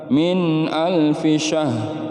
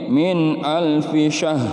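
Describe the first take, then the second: Both takes have the same delivery.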